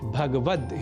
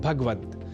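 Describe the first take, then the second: First: The vowel after the g sound is kept. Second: The vowel after the g sound is dropped. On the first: The speaker calls it right. "शुद्ध उच्चारण भगवद ही है" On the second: The speaker calls it wrong. "गकार से संयुक्त अ स्वर का हम लोप कर देते हैं और कह बैठते हैं"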